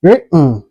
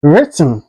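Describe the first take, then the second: First: WRITTEN with a catch for the T, "wri'n"; swallowed T. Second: WRITTEN with the T released before N; T fully pronounced. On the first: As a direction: say "written" American style, swallowing the T. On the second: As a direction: say "written" with an audible T. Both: Shown as a demonstration. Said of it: "can be pronounced like".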